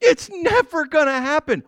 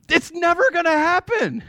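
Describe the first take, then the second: First: It's never gonna happen, again high and amused; incredulous repeat. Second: It's never gonna happen, pitched high and incredulous; laughing disbelief, high and bright. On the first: Preacher to congregation, amused disbelief. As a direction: repeat it through a chuckle. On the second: To the congregation, incredulous and pitched high. Emphatic exclamation. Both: Real, not acted.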